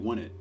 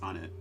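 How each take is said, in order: First: The name begins with a 'w' sound, 'won'. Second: The name begins with a plain vowel, 'on'. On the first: The speaker calls it wrong. "Some weirdos say won it" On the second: The speaker calls it right. "It's on it"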